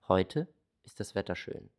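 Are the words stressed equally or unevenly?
unevenly. Some words are stressed more than others.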